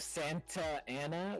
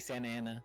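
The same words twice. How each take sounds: First: The T in the first word is pronounced. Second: The T in the first word is dropped. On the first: "instead of Santa Ana" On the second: "we say Santa Ana"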